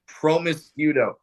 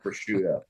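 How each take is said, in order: First: It is said with four syllables, adding an m. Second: It is said with three syllables, no m sound. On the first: The speaker calls it wrong. "That's how I thought you pronounced that word" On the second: The speaker calls it right. "Everyone knows it's called prosciutto"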